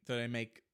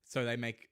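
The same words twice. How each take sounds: The two takes are said the same way.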